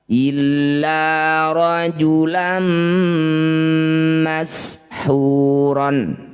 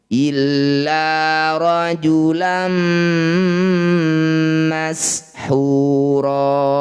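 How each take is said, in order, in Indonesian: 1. Kata terakhir berakhir dengan bunyi n. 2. Kata terakhir berakhir dengan a panjang.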